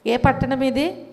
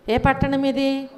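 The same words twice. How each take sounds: The two takes are said the same way.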